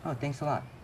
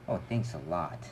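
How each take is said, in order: First: It is said in a sincere, grateful tone. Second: It is said in a sarcastic, offended tone. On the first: The speaker is genuinely grateful. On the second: The speaker is not actually grateful.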